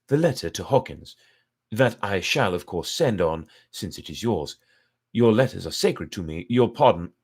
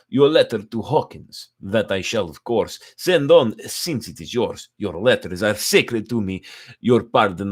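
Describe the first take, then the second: First: It is read in the narrator's own voice. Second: It is read in a put-on Dracula voice.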